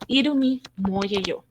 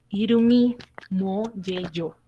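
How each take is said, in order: First: "irumi mo yeyo" said a little slowly inside the sentence; pronunciation demo. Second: "Irumi mo yeyo" very slow, syllable by syllable; slow model pronunciation. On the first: Teacher first naming the Korean phrase, slightly slowed. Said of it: "Entonces, viene siendo". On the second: Teacher modelling the Korean phrase slowly for students. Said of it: "viene siendo irumi mo yeyo". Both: Shown as a demonstration.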